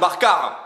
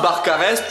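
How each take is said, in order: First: The final s sound is dropped. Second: The final s sound is pronounced. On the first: The speaker calls it wrong. "Y a pas de Bompas et de Barcar" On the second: The speaker calls it right. "tu me mets les S"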